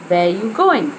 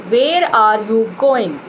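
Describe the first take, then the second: First: "Where are you going" run together, "are" reduced; quick and connected; right way. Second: "Where are you going" slow, each word spelled out; wrong way. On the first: Teacher modelling the smooth form. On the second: Teacher showing the stiff mistake. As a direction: plod through every word. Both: Shown as a demonstration.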